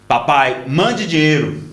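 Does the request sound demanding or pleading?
demanding. It is said in a blunt, demanding tone. The son is rudely ordering money. "Esse menino é um folgado"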